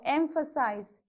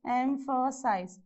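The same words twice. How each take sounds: First: Said in the usual way. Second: "emphasize" slowly split into three beats; syllable by syllable. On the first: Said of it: "Whenever there is a". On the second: Shown as a demonstration. Teacher counting syllables for students, "emphasize" slowly broken up. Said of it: "So how many syllable you have?".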